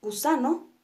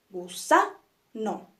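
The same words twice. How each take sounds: First: Said in the usual way. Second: "gusano" very slowly split gu-sa-no, "sa" stressed; syllable by syllable. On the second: Shown as a demonstration. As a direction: break "gusano" into beats, punching "sa". ("gusano" lento, gu-sa-no, con golpe en "sa") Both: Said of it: "las vamos a dividir en sus partes".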